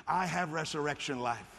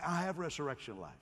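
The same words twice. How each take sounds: First: Said firmly and louder; strong confident declaration; with some strength. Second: Said in the usual way. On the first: Shown as a demonstration. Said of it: "say it with some strength". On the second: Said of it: "Oh, that was too feeble".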